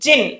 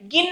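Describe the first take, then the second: First: It begins with a J sound. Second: It begins with a hard G sound. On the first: The speaker calls it right. "జిఐఎన్ జా sound తో రావాలి" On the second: The speaker calls it wrong. "గిన్ అనకూడదు"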